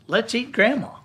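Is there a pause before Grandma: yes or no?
no. There is no pause before Grandma.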